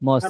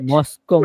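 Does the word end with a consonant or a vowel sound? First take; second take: consonant; vowel. First: The word ends with a consonant sound. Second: The word ends with an added vowel sound. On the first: The speaker calls it right. "শব্দের উচ্চারণ হবে মস্ক" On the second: The speaker calls it wrong. "মস্কো কই পেইলেন?"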